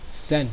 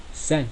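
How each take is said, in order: First: The word begins with an s sound. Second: The word begins with an s sound.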